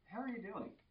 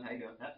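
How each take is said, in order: First: It is asked with genuine interest. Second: It is tossed off as a passing formality.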